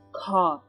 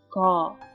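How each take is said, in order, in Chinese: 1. 这个辅音更接近k。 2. 这个辅音更接近g。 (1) "左边第1 个是不是偏向于k" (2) "第2 个字更偏向于g"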